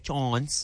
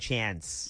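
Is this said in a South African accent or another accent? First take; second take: South African; another accent. First: It is said with a South African vowel. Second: It is said with a non-South African vowel.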